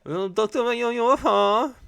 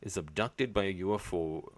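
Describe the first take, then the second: First: "abducted by a U F O" squeaked high and loud; mock squeal of "abducted by a U F O"; high squeaky repeat. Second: Said in the usual way. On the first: Shown as a demonstration.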